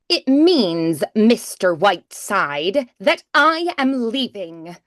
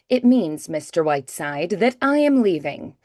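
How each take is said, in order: First: Loud, projected, with heavily exaggerated enunciation. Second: Quieter and close, with natural, relaxed diction. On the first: It is delivered for a theatre audience. "like on stage, I might do" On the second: It is delivered for a close microphone. "if I'm doing voiceover, I have a mic"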